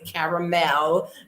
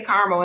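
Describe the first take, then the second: First: Caramel is said with a non-Detroit pronunciation. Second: Caramel is said with a Detroit pronunciation. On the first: This is how people outside Detroit say it. The speaker calls it wrong. "We do not say caramel" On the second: This is how people in Detroit say it. The speaker calls it right. "We say caramel in Detroit"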